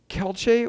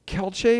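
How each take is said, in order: First: The two words are slurred into one. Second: The two words are slurred into one.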